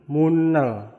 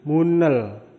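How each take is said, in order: No difference in how they are said.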